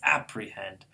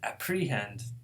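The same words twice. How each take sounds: First: The stress is not on the second-to-last syllable. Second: The stress is on the second-to-last syllable. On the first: The speaker calls it right. "It's apprehend" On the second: The speaker calls it wrong. "they would be wrong"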